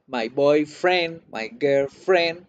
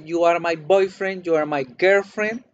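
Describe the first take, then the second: First: Put-on boyfriend and girlfriend slowed, weight on friend; slow, lean on friend; stress on friend. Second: Put-on boyfriend and girlfriend as one word each, weight on boy and girl; stress on boy, girl. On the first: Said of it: "pero si el gringo o la gringa le dicen". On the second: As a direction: say it like a sweetheart. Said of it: "Si el gringo o la gringa les dice". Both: Shown as a demonstration.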